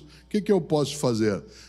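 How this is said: It sounds discouraged and weak.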